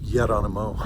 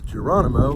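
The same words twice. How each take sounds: First: The name has a Basque-style pronunciation. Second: The name has a plain American pronunciation. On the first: "but he pronounces it Geronimo, which is fine" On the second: "His trail name is Geronimo"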